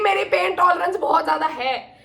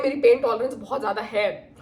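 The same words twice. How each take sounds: First: मेरी पेन tolerance बहुत ज्यादा है said higher with weight on मेरी; emphatic insistence. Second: Said in the usual way. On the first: Shown as a demonstration. (मेरी पर ज़ोर देकर ऊँची आवाज़ में) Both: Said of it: "trust me".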